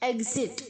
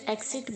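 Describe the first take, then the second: First: The x is sounded as gz. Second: The x is sounded as ks. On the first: The speaker calls it right. "ई के आगे जी pronounce होगा" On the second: The speaker calls it wrong. "बहुत सारे बच्चे से एग्जिट एक्सिट बोलते हैं, नहीं, गलत है"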